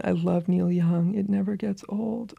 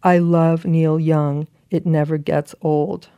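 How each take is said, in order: First: Slow, fading into a whisper; hushed quote. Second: Slow, deliberate proclamation; big-font emphasis. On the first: Retold or imitated. Quoting the friend's letter back to them, slow and hushed. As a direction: savour the line, dropping to a whisper. Savours the letter's line again. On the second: Acted. Rereading the letter's big text to a laughing friend, slow and emphatic. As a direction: spell out each word as a headline. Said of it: "and then in big font, big text".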